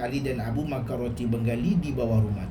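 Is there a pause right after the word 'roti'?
no. There is no pause after 'roti'. Two people ate Bengali bread under the house. The speaker calls it right.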